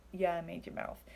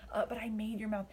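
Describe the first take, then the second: First: Dry, sarcastic retort as God; mock God's dry comeback. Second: Whispered gentle reassurance; a hushed, tender reminder; sincere, not sarcastic. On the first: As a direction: say it with a sarcastic shrug. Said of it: "I say it sarcastically". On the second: Retold or imitated. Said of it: "God didn't say it sarcastically".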